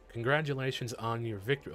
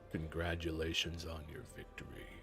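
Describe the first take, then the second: First: It is said in a normal voice. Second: It is said in a deep voice.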